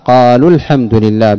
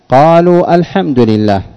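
First: The words run together with no glottal stop. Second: A glottal stop is pronounced before 'al-hamdu'. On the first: The speaker calls it right. "والصواب قالوا الحمد لله بحذفها نطقا" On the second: The speaker calls it wrong. "بقطع الهمزة"

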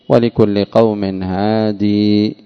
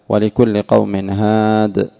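First: The last word ends with a long 'ee' vowel. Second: The last word ends without a long 'ee' vowel.

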